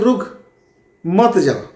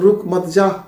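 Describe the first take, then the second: First: The pause comes after 'रुक'. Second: The pause comes after 'मत'.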